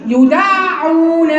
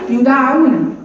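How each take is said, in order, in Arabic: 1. صوت الدال طويل ومشدّد. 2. صوت الدال قصير ومفرد. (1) "الحرف المشدد حرفين" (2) "ما اقولش يدعون. انت كده اسقطت حرف"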